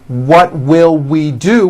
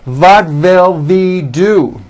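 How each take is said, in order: First: The words begin with rounded W sounds. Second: The words begin with buzzing V sounds. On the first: The speaker calls it right. "which is correct" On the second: The speaker calls it wrong. "they may say"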